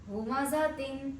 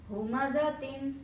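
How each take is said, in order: The two takes are said the same way.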